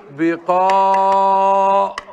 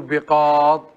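First: بقاض stretched very slowly as "biqaaḍ", stopping on the ḍ; slow teaching demo of بقاض with no final i; pausal form without ya. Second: Said in the usual way. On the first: Shown as a demonstration. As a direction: hold the long aa of بقاض and cut the ending. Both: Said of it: "لما نوقف عليه نقول".

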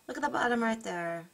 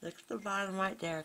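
First: Said in the usual way. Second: Talking around a pen held in the mouth; pen in teeth. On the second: Real, not acted. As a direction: mumble with a pen between your teeth. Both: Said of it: "I'm talking with the pen in my mouth".

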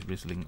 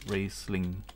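First: Riesling said as RIZ-ling with a short i; Riesling misread as RIZ-ling, first syllable like riz; first guess, Riesling with a short riz; misread wine name. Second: Riesling said as RACE-ling with a long ay sound; Riesling fixed to RACE-ling after a stumble; corrected Riesling, first syllable rhymes with race; corrected pronunciation. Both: Real, not acted. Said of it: "Okay, Ri-, Ri".

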